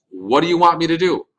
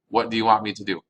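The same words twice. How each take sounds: First: What do you want me to do pitched up and loud, want hit hard; emphatic. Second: Said in the usual way. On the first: Shown as a demonstration. Teacher emphatically translates the question for students. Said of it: "teacher translates emphatically". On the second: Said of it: "same translation repeated".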